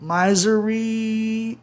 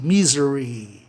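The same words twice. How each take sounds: First: "Misery" drawn out slowly as "MAI-zeri", higher, long AI sound; wrong pronunciation. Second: "misery" with a short I, "MI-zeri"; correct pronunciation. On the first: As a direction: stretch "Misery" with a long AI, the rejected way. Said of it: "Ia dar mais trabalho". ("Misery" lento e mais agudo, com I pronunciado AI, do jeito errado) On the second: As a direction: say "misery" plainly with I as in "miss". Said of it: "o I então muda pra I". ("misery" com I curto, do jeito certo) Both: Shown as a demonstration.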